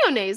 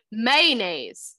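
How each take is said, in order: First: "Mayonnaise" as MAY-oh-naze, brisk; short, insistent three-syllable "Mayonnaise"; insistent repeat. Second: "Mayonnaise" squeezed to MAY-naze, drawn out; stretched two-syllable "Mayonnaise"; imitated pronunciation. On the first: Retold or imitated. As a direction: fire back "Mayonnaise" with the middle oh. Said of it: "That's what I said". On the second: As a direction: drop the middle oh from "Mayonnaise", falling. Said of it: "That's not how you say that either".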